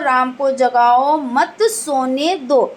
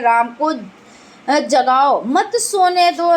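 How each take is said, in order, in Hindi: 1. 'mat' के ठीक बाद विराम है। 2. 'jagao' के ठीक बाद विराम है। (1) "सेकंड जो है राम को जगाओ मत" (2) "राम को जगाओ, अब और मत सोने दो"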